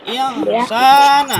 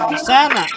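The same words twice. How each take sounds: First: The vowel in the middle is drawn out long. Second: The vowel in the middle is said short. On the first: The speaker calls it right. "Jadi panjang insanya" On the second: The speaker calls it wrong. "ini enggak langsung insana, enggak"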